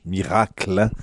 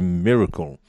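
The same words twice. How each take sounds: First: The word is pronounced the French way. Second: The word is pronounced the English way. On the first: "which is the same word in French, miracle. We pronounce it differently" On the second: "the word of the day for me would be miracle"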